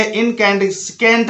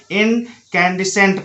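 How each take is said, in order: First: इनकैंडिसेंट said as in-can-dis-kent; wrong pronunciation. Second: इनकैंडिसेंट as in-can-di-sent; no k after the s in इनकैंडिसेंट; correct silent C. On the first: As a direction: say इनकैंडिसेंट with a k after the s. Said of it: "नहीं पढ़ना है आपको". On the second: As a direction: say इनकैंडिसेंट with s alone. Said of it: "पढ़ना है". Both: Shown as a demonstration.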